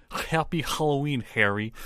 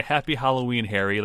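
First: Russian accent, "Happy Halloween" with throaty h's. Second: Said in the usual way. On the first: Shown as a demonstration. Co-host testing himself on the tip, Russian accent. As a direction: scrape each h in a Russian accent. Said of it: "like a Russian".

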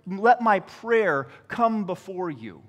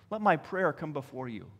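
First: Said in the usual way. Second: Softer repeat of a prayer; hushed echo. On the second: Acted. Psalmist praying to the Lord, hushed echo. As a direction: drop the volume, as if praying privately.

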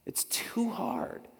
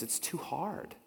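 First: Whisper. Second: Said in the usual way. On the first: Shown as a demonstration.

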